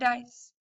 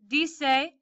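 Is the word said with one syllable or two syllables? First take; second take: one syllable; two syllables. First: It is said as one syllable, rhyming with rice. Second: It is said with two syllables, dee-seh. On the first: The speaker calls it wrong. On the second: The speaker calls it right.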